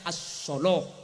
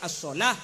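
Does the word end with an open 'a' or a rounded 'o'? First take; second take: rounded o; open a. First: The word ends with a rounded o-like vowel. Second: The word ends with an open a vowel. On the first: This is the reading of Nafi's transmission via Warsh. "imam Nafi riwayat waras membaca solo" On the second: This is the common Hafs reading. "beda semaca as-sholah"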